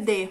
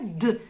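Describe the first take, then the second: First: The letter is said as its full name. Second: The letter is said as a bare consonant sound. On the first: "o nome é D" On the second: "mas o som é D"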